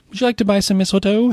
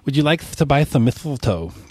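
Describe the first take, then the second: First: It is said plainly, without a childlike lisp. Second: It is said with a childlike lisp. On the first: The speaker calls it wrong. "I didn't say that right" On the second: The speaker calls it right. "they've got that that list from the teeth missing"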